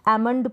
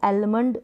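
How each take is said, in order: First: The L sound is silent in the word. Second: The L sound is pronounced in the word. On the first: The speaker calls it right. "एमंड पढ़ेंगे, क्योंकि एल यहाँ पर silent है" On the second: The speaker calls it wrong. "इसको एलमंड नहीं पढ़ेंगे"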